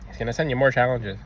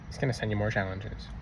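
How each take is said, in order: First: Said in the usual way. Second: Echoed much softer; a soft, sinking echo of the warning; quiet repeat. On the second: Shown as a demonstration. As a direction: drop the repeat to near a hush.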